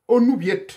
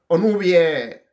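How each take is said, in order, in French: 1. Le T final se prononce à la fin. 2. La fin sonne comme « ê », sans T. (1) "ils vont dire Onubiet. Pourquoi? Mais parce qu'ils vont lire toutes les lettres" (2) "Mon nom se prononce comme ça"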